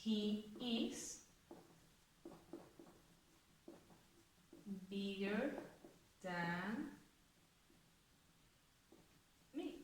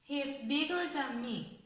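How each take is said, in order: First: Much softer, word by word, as if writing it on the board; soft, slow dictation of the example; soft, drawn-out dictation. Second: Clear, unhurried model sentence. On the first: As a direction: murmur each word slowly while writing. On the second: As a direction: read out a little slowly and clearly at full voice. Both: Shown as a demonstration. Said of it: "Vamos a ponerla en una frase".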